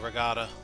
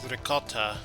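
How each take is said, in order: First: The middle consonant is a hard G sound. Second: The middle consonant is a K sound. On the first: It is said the casual, unpretentious way. "The classless way" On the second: It is said the posh, proper way. "you classist apes out there pronounce it"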